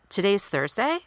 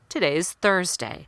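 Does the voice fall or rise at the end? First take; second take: rise; fall. First: The pitch rises at the end. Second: The pitch falls at the end. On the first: The statement sounds like a question. The speaker calls it wrong. "Going up in pitch" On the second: The statement sounds confident and complete. The speaker calls it right. "Going down in pitch at the end"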